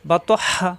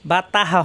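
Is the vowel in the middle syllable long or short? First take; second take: short; long. First: The middle vowel is short. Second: The middle vowel is drawn out long. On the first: The speaker calls it right. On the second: The speaker calls it wrong. "হবে না কিন্তু"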